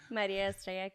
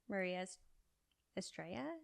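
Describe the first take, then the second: First: The name is pronounced the Spanish way. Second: The name is pronounced the English way. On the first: "let me say in Spanish, I can say it properly" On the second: "is how you say it in English"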